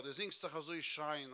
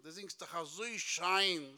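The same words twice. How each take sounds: First: Said in the usual way. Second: SCHEIN stretched long and slow; drawn-out compliment. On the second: Retold or imitated. Admirer flattering the singer, slow stretch on SCHEIN.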